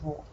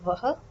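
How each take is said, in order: First: The pronoun is pronounced as one syllable, 'wo'. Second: The pronoun is pronounced as two syllables, 'vaha'. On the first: "Generally, you hear it as wo" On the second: "Some people do that"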